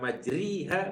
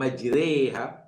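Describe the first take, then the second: First: The vowel after the r sounds like 'i'. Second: The vowel after the r sounds like 'e'. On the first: The speaker calls it wrong. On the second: The speaker calls it right. "dengan imalah"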